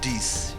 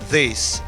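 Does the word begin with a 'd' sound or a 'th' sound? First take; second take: d sound; th sound. First: The word begins with a hard 'd' sound. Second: The word begins with a soft 'th' sound. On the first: The speaker calls it wrong. "not this. This is D I S" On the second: The speaker calls it right. "words that have the T H like T H I E S is this"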